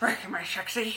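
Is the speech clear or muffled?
muffled. It is said muffled, as through a mouth guard.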